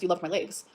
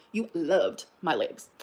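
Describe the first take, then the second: First: Said in the usual way. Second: LOVED drawn out slowly, low and softer; slow emphasis on LOVED. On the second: Real, not acted. Taunting ex about old attraction, LOVED drawn out slowly. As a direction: stretch LOVED, pausing before "my legs".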